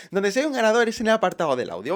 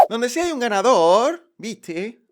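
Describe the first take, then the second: First: Said in the usual way. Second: Put-on loud, slow Argentine accent; loud, slow mock Argentine accent. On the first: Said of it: "perdón". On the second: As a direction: announce it like a porteño showman. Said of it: "perdóname, que hoy me ha dado por el argentino".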